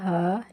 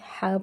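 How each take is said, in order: First: The h sound is light and breathy. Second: The h sound is heavy and throaty. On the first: The speaker calls it wrong. "हा नहीं पढ़ा जाएगा" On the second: The speaker calls it right. "ये वाला हा भी हा पढ़ा जाएगा"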